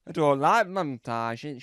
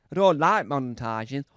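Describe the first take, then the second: First: A slow, lightly put-on presenter voice; a hint of a grand TV host; different voice. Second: A lightly put-on louder presenter voice; different voice. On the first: Lightly voiced presenter declaring her dislike. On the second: A hint of veteran presenter, louder declaration. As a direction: say it like a seasoned TV host. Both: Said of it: "I'm just trying to do a different voice".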